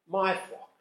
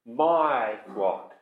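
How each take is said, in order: First: "My" lifted high and leaned on, "flock" falls away; stress on MY. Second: Said in the usual way. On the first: Shown as a demonstration. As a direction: hit "My" to show whose flock it is. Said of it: "to whom do these sheep belong". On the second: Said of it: "notice whose they are".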